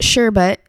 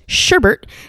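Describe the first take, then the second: First: The second syllable has no extra R sound. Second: The second syllable has an extra R sound.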